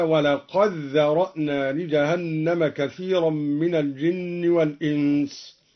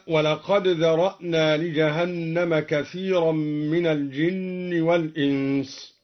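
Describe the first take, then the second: First: ولقد ذرأنا merged as "walaqaddhara'na"; دال مدغمة في الذال. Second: ولقد ذرأنا with the d sounded clearly; دال قد مظهرة. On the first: (إدغام دال قد في ذال ذرأنا) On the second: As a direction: keep the d of ولقد apart from ذرأنا. (إظهار دال قد قبل الذال) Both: Shown as a demonstration. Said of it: "أدغم الدوري الدال في الذال هكذا".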